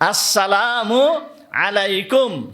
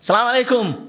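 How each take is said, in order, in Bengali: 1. সালামের প্রতিটি অক্ষর স্পষ্টভাবে উচ্চারিত হয়। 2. শুরুর দিকের অক্ষরগুলো বাদ পড়ে, তাতে সালামটি সংক্ষিপ্ত হয়ে যায়। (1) "সঠিকভাবে এইটা উচ্চারণ করতে হবে" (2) "সালাম আলাইকুম এর দ্বারা সালাম হবে না।"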